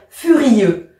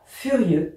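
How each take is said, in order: First: The two vowels are split into separate syllables. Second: The two vowels merge into one syllable. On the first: The speaker calls it right. "mais on va dire" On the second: The speaker calls it wrong. "On ne dit pas"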